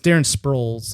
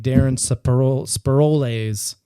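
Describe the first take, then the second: First: The name is pronounced in the standard way. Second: The name is pronounced in a mangled way. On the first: The speaker calls it right. "is how you actually pronounce this guy's name" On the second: The speaker calls it wrong. "he didn't even know how to pronounce the guy's name"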